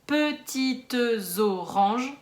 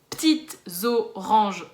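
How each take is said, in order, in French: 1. Le e muet est prononcé, ce qui donne cinq syllabes. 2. Le e muet est supprimé, ce qui donne trois syllabes. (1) "en poésie, ce qui fait cinq syllabes" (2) "dans la vraie vie"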